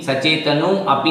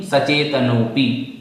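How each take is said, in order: First: सचेतनो अपि as two words, with अपि beginning on its own a; wrongly split. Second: सचेतनोपि slowly as one word, no a before पि; correctly joined. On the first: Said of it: "सचेतनो अपि नहीं". (सचेतनो अपि को अलग-अलग बोलें) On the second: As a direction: merge नो straight into पि in सचेतनोपि. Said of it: "इस प्रकार से". (सचेतनोपि को एक साथ, बिना अ के बोलें) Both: Shown as a demonstration.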